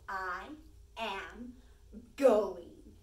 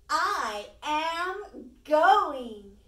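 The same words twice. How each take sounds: First: It is said in a calm, normal voice. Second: It is said excitedly in a louder voice.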